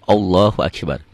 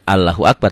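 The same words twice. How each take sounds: First: Allah is said with a heavy, thick sound. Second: Allah is said with a light, thin sound. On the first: The speaker calls it right. "tapi Allahu Akbar; lafaz Allah ini dibaca tebal" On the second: The speaker calls it wrong. "Bukan Allahu Akbar"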